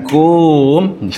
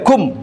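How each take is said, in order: First: The vowel is drawn out long. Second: The vowel is short. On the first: The speaker calls it wrong. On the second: The speaker calls it right. "Kum tu pendek aja"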